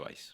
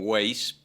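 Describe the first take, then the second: First: The name is said with a German-style pronunciation. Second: The name is said with a Spanish-style pronunciation. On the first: This is the original form from the source language. The speaker calls it right. "pero se pronuncia Weiss" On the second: This is the adapted local form everyone uses. The speaker calls it wrong. "argentinizado y todo el mundo me dice, incluso yo mismo"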